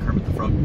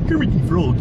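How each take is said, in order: First: Said in the usual way. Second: Lightly voiced frog puppet, higher, louder; a hint of a cheerful frog puppet; Kermit the Frog. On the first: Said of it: "I can do a Barney". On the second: Shown as a demonstration. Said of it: "well, that, I just did".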